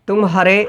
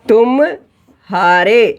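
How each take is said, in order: First: The two parts run together without a break. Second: A short break separates the two parts. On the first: "फटाफट तुम और हारा दोनों एक के बाद एक आ गया" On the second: "थोड़ा ज्यादा समय लिया जा रहा है"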